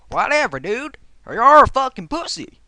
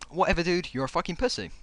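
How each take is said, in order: First: It is read in a put-on Southern American accent. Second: It is read in the speaker's own plain accent.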